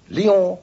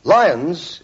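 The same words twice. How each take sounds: First: Lyon the French way, "lee-ON" with nasal ending; French pronunciation. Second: Lyons the English way, like "lions"; English pronunciation. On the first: Announcer advises travellers on Lyon, French pronunciation. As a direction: say Lyon slowly with a silent n. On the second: Announcer advises travellers on Lyons, English pronunciation. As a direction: say Lyons with a sounded final s. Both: Shown as a demonstration. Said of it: "Lyons is pronounced Lyon".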